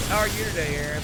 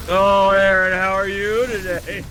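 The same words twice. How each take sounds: First: Said in the usual way. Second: Loud, slow creepy greeting. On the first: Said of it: "I never read it like that". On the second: Shown as a demonstration. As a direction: drag it out, creepy and unsettling. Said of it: "Everything is in creepy Paco voice".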